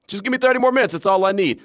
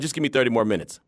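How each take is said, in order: First: Eager plea. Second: Said in the usual way. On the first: Retold or imitated. To his wife after the show ended, eager begging. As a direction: beg for just a bit more.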